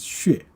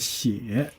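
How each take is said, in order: First: It is said with the formal pronunciation. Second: It is said with the colloquial pronunciation. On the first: It is the standard, formal reading. "So the formal pronunciation is 血" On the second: It is used in spoken conversation. "another pronunciation called 血. Uh, now, 血 is actually a colloquial"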